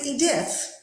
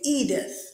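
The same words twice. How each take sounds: First: The stress is on the second syllable. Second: The stress is on the first syllable. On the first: The speaker calls it wrong. "We don't say Edith" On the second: The speaker calls it right. "we say Edith. Yes, so it's on the first part"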